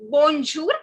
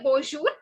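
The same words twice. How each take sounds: First: A clear N consonant is pronounced after bon. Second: No N consonant is pronounced after bon. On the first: The speaker calls it wrong. "it is not bonjour, so don't pronounce the M" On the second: The speaker calls it right. "Say bonjour"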